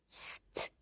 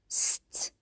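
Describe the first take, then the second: The two takes are said the same way.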